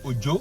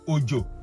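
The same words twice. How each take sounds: First: Its tones give the word meaning 'name'. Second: Its tones give the word meaning 'rain'. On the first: "O J O can be name" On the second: "O J O can be rain"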